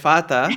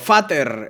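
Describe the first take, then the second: First: It is said with a German-style pronunciation. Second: It is said with a Spanish-style pronunciation. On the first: The speaker calls it right. "en vez de fata" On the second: The speaker calls it wrong. "O fater en vez de fata"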